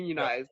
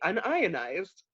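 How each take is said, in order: First: It begins with the word union, then ized. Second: It begins with un, then ionized. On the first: It means organized into a labor union. "a plumber would say union" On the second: It means not ionized. "I would say unionized"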